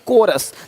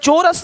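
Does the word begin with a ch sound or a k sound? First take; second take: k sound; ch sound. First: The word begins with a k sound. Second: The word begins with a ch sound. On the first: The speaker calls it right. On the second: The speaker calls it wrong. "चोरस नहीं"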